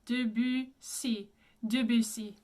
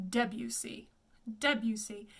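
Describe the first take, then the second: First: Debussy with schwa and rounded French u; careful French Debussy; French pronunciation. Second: Debussy as "DEB-yoo-see"; anglicized Debussy; common English pronunciation. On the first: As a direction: say Debussy as "duh-bü-SEE". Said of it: "U with the lips". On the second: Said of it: "you will often hear to hear him pronounced". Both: Shown as a demonstration.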